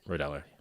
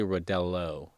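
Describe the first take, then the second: First: The name ends with an 'ah' sound. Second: The name ends with an 'oh' sound. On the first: The speaker calls it right. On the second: The speaker calls it wrong.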